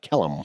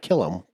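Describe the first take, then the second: First: The first syllable sounds like 'kell'. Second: The first syllable sounds like 'kill'. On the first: The speaker calls it right. "but Kellum" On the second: The speaker calls it wrong. "not Killam"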